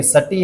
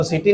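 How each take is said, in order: First: "सटी" with a neutral short first vowel, suh-tee; pronunciation suh-tee. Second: "सिटी" with a short i, si-tee; rejected pronunciation si-tee. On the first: ("सटी", पहले अक्षर में इ नहीं) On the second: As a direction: say "सिटी" like the English word city. ("सिटी", पहले अक्षर में छोटी इ) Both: Shown as a demonstration. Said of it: "इसको सिटी नहीं बोलना है".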